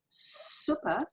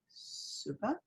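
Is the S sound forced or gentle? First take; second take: forced; gentle. First: The S is pushed out hard and forcefully. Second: The S is released softly and gently. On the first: "The very forced sound" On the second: "the very gentle sound"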